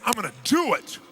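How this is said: It sounds firm and convinced.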